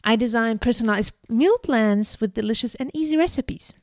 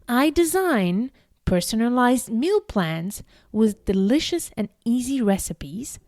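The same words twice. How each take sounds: First: It is read quickly and naturally. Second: It is read very slowly.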